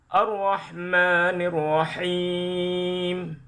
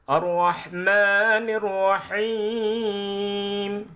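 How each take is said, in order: The two takes are said the same way.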